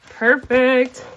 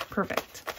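First: Perfect said higher and louder with delight; bright, loud, happy Perfect; pleased exclamation. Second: Perfect breathed out in a whisper; hushed, satisfied whisper of Perfect. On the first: Counting cash, pleased exclamation. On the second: Counting cash, quiet aside. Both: Real, not acted.

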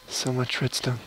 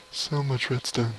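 Both takes have the same delivery.

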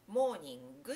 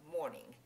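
First: モーニング with a u vowel after the final g, moningu; モーニング ending in an added gu, the wrong way; romaji morning. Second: モーニング ending in a bare ng, no u after it; モーニング closing on the nasal with no added vowel; English morning. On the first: Teacher showing the wrong u after g. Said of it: "モーニングって言ってしまうと". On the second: Teacher modelling morning without the extra vowel. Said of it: "ここはモーニングになりますね". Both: Shown as a demonstration.

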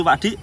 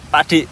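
First: Said in the usual way. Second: Pak Dik called out louder. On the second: Shown as a demonstration.

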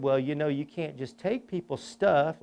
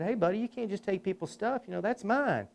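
First: Said in the usual way. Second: Put-on higher, soft life-lesson voice to a child; lightly voiced gentle scolding of a kid; gentle grown-up to little kid. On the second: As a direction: talk down kindly to a tiny Batman, pitched up. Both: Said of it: "like I'm gonna give him a life lesson".

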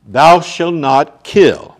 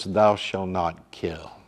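First: "Thou shalt not kill" boomed out slowly, "Thou" hit hardest; loud commandment. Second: "Thou shalt not kill" said softly and slowly, low; hushed, lower "Thou shalt not kill"; quiet commandment. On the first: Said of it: "loud slow quoted commandment". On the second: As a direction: lay "Thou shalt not kill" down gently, almost an aside. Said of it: "than the law that says". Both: Shown as a demonstration.

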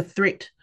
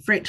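First: Threat said with a clear TH, as in threat; mispronounced fret. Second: Corrected slip, fret said properly. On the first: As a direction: start threat with a TH sound instead of the F of fret. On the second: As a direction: fret said with a clear F, rhymes with threat. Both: Shown as a demonstration. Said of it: "Oh, fret, sorry".

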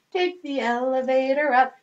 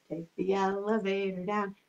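First: Said in the usual way. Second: Low and soft for down. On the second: Shown as a demonstration. Elevator rhyme, low down.

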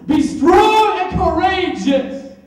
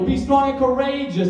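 First: High, loud and slow shouted charge; shouted command. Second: A firm, louder charge to be brave; firm encouragement. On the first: God insisting his son be brave, shouted command. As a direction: bellow it out as a command. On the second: God encouraging his son, firm charge. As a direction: urge him on steadily. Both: Acted. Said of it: "didn't I tell you?".

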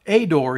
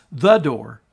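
First: Said in the usual way. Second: "the" hit hard and loud before door; stress on the. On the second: Shown as a demonstration. Preacher stressing "the" to show Jesus is the only door. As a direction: lean on "the" in "the door". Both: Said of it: "he is, notice".

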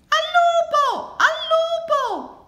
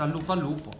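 First: Very high, loud, drawn-out shout; piercing, stretched alarm call; cry of wolf. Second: Said in the usual way. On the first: A narrator's reading. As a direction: yell desperately for the village to hear. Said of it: "gridava Luigi". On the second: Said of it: "ha sempre detto".

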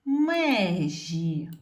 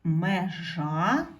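First: Межі with a loud, drawn-out stressed Е; stress on first syllable. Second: Межа with the final А stressed and rising; stress on last syllable. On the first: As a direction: stretch and punch the Е in межі. (протяжний наголос на Е у слові межі) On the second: (наголос на А в кінці слова Межа) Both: Shown as a demonstration. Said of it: "Не забуваємо ставити наголос".

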